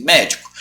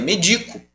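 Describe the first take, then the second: First: MÉDICO stressed on the first syllable. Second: MEDICO stressed on the middle syllable. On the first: Teacher naming the noun for the class, médico stressed on MÉ. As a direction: say MÉ-dico, the noun. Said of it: "É um substantivo". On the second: Teacher contrasting the verb with the noun, medico stressed on DI. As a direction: say me-DI-co, the verb form. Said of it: "a gente tem essa palavra também". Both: Shown as a demonstration.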